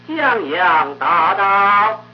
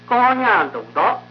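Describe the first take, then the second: First: The words are said with a wide-open mouth. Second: The words are said with a narrow, closed mouth. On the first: The speaker calls it right. "江阳折的江阳，发花折的大，苗条折的道" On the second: The speaker calls it wrong. "江南话的口板呢又小多了，您听听看"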